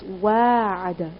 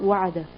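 First: The first vowel is drawn out long. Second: The first vowel is kept short. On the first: The speaker calls it right. "if you pronounce it, it's wa'ada" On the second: The speaker calls it wrong. "it's not wa'ada"

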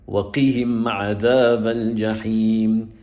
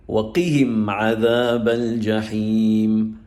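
The two takes are said the same way.

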